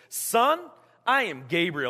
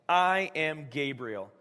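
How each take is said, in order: First: It is said in a scolding, telling-off tone. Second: It is said in a plain, neutral tone.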